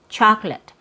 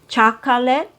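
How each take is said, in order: First: The word is said with two syllables. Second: The word is said with three syllables. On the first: The speaker calls it right. "so you only hear two syllables" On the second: The speaker calls it wrong. "you're not going to hear native speakers say"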